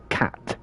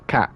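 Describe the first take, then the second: First: The final T is clearly pronounced. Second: The final T is dropped or glottal. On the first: "in a lot of around the world, you will say cat" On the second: "I don't pronounce the T's at the end"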